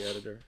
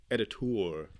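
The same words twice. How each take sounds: First: Said in the usual way. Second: "Editor" ending in a long "toor"; altered pronunciation of Editor. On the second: Shown as a demonstration. Repeating the word to co-host, "Editor" ending like "tour".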